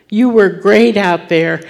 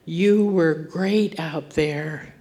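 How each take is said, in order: First: Louder, ringing out; proclaimed praise. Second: Slow, gentle and a little softer; tender praise. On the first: Acted. Preacher voicing God to his daughter, proclaimed loudly. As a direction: declare it boldly to the whole church. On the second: Retold or imitated. Father comforting his boy off the field, slow and tender. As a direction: let each word settle slowly to reassure.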